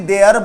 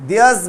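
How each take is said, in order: First: Their said without the s; the wrong form, their. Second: Theirs said with the s at the end, diəz; theirs, not their. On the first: (their, बिना स के) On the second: (theirs, अंत में स के साथ) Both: Shown as a demonstration. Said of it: "ना कि their बोलेंगे".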